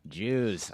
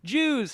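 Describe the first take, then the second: First: The word sounds doubtful and disparaging. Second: The word sounds cheerful and approving. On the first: The speaker is wary of the group. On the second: The speaker welcomes the group.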